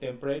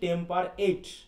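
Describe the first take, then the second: First: The last syllable has a short, weak vowel. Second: The last syllable is said fully like 'eight'. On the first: The speaker calls it right. "টেম্পারেট বলা হচ্ছে" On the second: The speaker calls it wrong. "তাহলে আমরা এটাকে ভুল করলাম"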